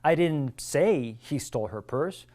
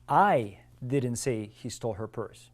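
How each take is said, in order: First: The stress falls on the word say. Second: The stress falls on the word I. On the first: It was implied rather than said. "I might have implied it" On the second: Someone else said it. "It was somebody else that said it"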